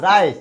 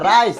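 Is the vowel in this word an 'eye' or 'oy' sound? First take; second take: eye; eye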